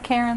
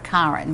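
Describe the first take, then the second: First: The name is said in the speaker's plain accent. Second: The name is said in a British accent.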